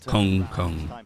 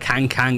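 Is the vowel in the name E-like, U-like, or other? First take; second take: U-like; other. First: The vowel sounds close to a U. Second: The vowel is neither E-like nor U-like. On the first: The speaker calls it right. "It's more like a U sound than anything" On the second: The speaker calls it wrong. "it's not Kang Kang"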